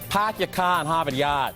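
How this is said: It is said in a Boston accent.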